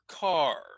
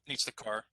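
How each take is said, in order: First: The pitch moves clearly on the final word. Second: The pitch stays flat on the final word. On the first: The speaker calls it right. "maybe just a little bit more" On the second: The speaker calls it wrong. "it's hard for English speakers to hear that"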